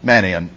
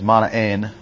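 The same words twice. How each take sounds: First: The name is pronounced the English way. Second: The name is pronounced the Greek way. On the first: "just go ahead and anglicize it" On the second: "if you're going to follow the Greek pronunciation"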